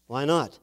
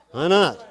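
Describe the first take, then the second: First: Said in the usual way. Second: Louder, punchier rhetorical challenge; emphatic, louder comeback to doubters; emphatic repeat. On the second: Acted. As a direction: throw the answer out harder, with force. Repeats his answer with more force.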